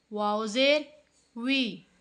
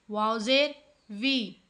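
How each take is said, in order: Both takes have the same delivery.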